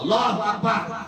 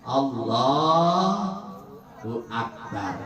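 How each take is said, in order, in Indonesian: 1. Frasa "Allahu Akbar" diserukan dengan keras. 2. Frasa "Allahu Akbar" diucapkan dengan pelan dan lambat. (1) "di lapangan ditakbir aja" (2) "di masjid takbirnya pelan-pelan"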